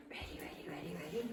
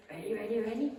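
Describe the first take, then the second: First: Whispered, teasing ready ready; hushed whisper. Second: Higher, bouncy repeated ready; eager dog call. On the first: Trainer teasing her dog with a hushed whisper before the toss. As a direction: draw the dog in with a secret whisper. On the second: Trainer revving up her dog before the toss, eager and bouncy. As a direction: tease the dog into playing. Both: Real, not acted.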